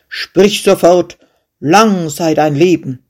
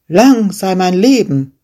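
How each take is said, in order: First: Angry king. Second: Defiant shepherd. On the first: King commands the fearless shepherd, angry and loud. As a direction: demand it like an offended ruler. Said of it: "Verärgert rief der König". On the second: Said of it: "rief der Schäfer". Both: Acted.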